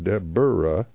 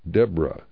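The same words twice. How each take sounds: First: The name is said with three syllables. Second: The name is said with two syllables. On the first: The speaker calls it wrong. "not Deborah" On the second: The speaker calls it right.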